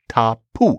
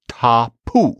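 First: The middle consonant is a p sound. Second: The same.

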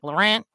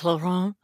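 First: The name is said in a broad Midwestern way. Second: The name is said with a French pronunciation. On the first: "my like Midwestern, like Michigan trash family is always like" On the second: "the fancy French way"

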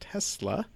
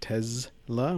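First: The middle consonant is a hissing S sound. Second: The middle consonant is a buzzing Z sound. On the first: This is how the speaker always said it. "I always called it Tesla" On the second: This is how company employees say it. "company employees keep calling it Tesla with a Z sound"

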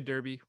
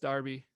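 First: It is said with an American accent. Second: It is said with a British accent.

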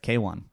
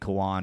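First: The name is said with two syllables. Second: The name is said as one short syllable. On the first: The speaker calls it right. "But yeah, it's Kaywan" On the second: The speaker calls it wrong. "we've been saying Kwan"

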